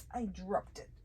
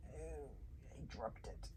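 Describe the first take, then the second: First: Said in the usual way. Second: Breathy whisper to herself. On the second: Real, not acted. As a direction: murmur it under your breath. Drops something, mutters to self.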